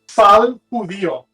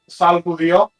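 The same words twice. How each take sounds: First: The phrase is said slowly and carefully. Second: The phrase is said at normal conversational speed.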